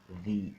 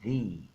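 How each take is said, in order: First: It ends in a long 'ee' vowel. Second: The same.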